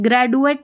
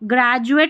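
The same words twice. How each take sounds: First: The middle consonant is a plain 'd' sound. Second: The middle consonant is a 'j' sound. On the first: The speaker calls it wrong. "ग्रेजुएट नहीं बोलते ना" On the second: The speaker calls it right. "ये देखिए ग्रेजुएट बोलते"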